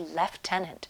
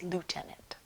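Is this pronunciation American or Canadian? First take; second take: Canadian; American. First: It is said the Canadian way. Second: It is said the American way.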